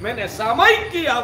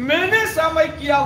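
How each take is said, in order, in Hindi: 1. ज़ोर 'सामयिक' शब्द पर पड़ता है। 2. ज़ोर 'मैंने' शब्द पर पड़ता है। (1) "वो बोलने वाला आराधक" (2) "वो बोलने वाला विराधक है"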